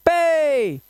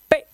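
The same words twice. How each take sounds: First: पे held long and high; drawn-out, higher पे; long vowel sound. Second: पे cut very short; brief पे with no held vowel; short vowel sound. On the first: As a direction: stretch the vowel of पे. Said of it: "what is long vowel sound". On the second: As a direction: say पे in one quick burst. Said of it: "short vowel sounds". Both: Shown as a demonstration.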